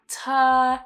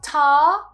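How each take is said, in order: First: The vowel is relaxed, like 'er'. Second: The vowel is open, like 'ah'. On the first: The speaker calls it right. "keep it super relaxed" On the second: The speaker calls it wrong. "So not tar, don't drop your jaw"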